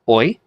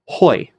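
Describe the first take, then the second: First: The diphthong starts with no h sound. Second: The diphthong starts with an h sound. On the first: "smooth breathing mark has no effect on pronunciation" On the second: "rough breathing mark gives it sort of an H sound"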